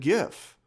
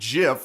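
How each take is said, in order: First: The word begins with a hard G sound. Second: The word begins with a J sound. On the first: This is the older generation's way of saying it. The speaker calls it right. "I pronounce it GIF. ... because I'm of that generation" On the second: This is the younger generation's way of saying it. The speaker calls it wrong. "younger generations started calling it Jif, like the peanut butter"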